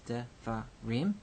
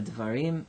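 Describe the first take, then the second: First: "devarim" slowly split into three separate syllables. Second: Said in the usual way. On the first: Shown as a demonstration. Teacher showing syllable division, "devarim" broken slowly into three syllables. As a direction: say "devarim" in pieces, de, va, rim, with gaps. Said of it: "You've seen syllable division before". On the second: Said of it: "three syllable word".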